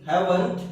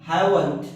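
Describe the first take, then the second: No difference in how they are said.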